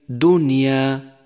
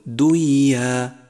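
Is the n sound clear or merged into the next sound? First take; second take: clear; merged. First: The n sound is clearly pronounced. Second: The n sound merges into the following sound. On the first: The speaker calls it right. "انقلب الحكم إظهارا" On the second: The speaker calls it wrong. "فلا تقل"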